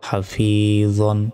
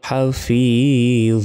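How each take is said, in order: First: The word ends with a final n sound. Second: The word ends without the final n sound. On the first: The reading continues without stopping. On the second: The reading stops at this word.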